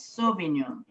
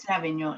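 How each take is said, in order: First: The word is said in the French way. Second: The word is said in the common American way. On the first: The speaker calls it right. "It's Sauvignon" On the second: The speaker calls it wrong. "Everybody here in the United States says Savignon, and that's not right"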